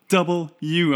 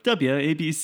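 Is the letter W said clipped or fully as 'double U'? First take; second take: full; clipped. First: The letter W is said fully and firmly. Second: The letter W is clipped and reduced. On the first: The speaker calls it right. "So it's like a firm double U" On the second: The speaker calls it wrong. "I got in trouble for never pronouncing my W's properly"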